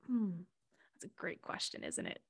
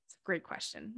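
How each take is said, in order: First: Breathy, much softer whisper; whispered musing. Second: Said in the usual way. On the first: Retold or imitated. Answering Mama Gaia, whispered and wry. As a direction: muse it under your breath.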